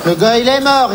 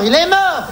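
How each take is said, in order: First: Said in the usual way. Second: Mort repeated much higher, shouted; herhaald met nadruk. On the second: Acted. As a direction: hammer the word mort home.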